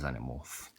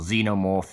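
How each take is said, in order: First: The word has a British pronunciation. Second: The word has an American pronunciation. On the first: "I'm British" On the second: "if you're American"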